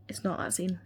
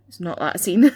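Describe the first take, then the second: First: Muttered. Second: Louder, punched with a laugh; loud insistence. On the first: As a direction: mutter it under your breath. Repeated denial. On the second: Repeated denial, then laughs. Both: Real, not acted.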